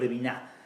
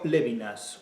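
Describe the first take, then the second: First: The name is pronounced with French sounds. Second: The stress falls on the first syllable. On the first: "a la francesa" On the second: "a la esdrújula"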